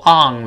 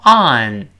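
First: "on" wrongly ending in NG; back-nasal "ong" for "on"; 错误读法示范. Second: "on" ending in a clear N; emphatic correct on. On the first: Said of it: "不要读on了". (把"on"错读成后鼻音) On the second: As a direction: stress "on", tongue tip closing the N. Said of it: "再强调一遍". (强调"on"，前鼻音收尾) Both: Shown as a demonstration.

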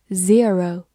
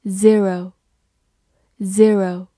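First: "zero" with a long "ee" in the first syllable; alternative ZERO reading. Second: Said in the usual way. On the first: Shown as a demonstration. Teacher gives learners another reading, "zero" said ZEE-roh. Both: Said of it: "或者读作".

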